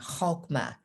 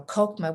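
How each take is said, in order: First: The word starts with a rough guttural sound. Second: The word starts with a plain hard K. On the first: "the pronunciation with the guttural sound" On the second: "Kokma with the K sound is just fine"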